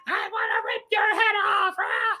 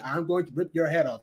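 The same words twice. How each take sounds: First: High screamed cartoon vampire threat; Gilbert Gottfried's vampire. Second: Said in the usual way. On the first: Reviewer imitating vampire Santa threatening a kid, high screech. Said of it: "hear him doing the vampire noise". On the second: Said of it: "they do actually say".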